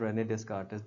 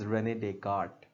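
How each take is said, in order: First: The surname has an s sound before the k. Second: The surname has no s sound before the k. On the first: The speaker calls it wrong. "This is not रेने डेस्कार्ट" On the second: The speaker calls it right. "This is रेने डेकार्ट इसका नाम है"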